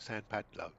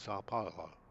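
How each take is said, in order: First: The first word ends in an 'n' sound. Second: The first word ends in an 'ow' vowel. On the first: The speaker calls it wrong. "I've been pronouncing that totally wrong because I've always called it" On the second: The speaker calls it right. "but it's not. It's"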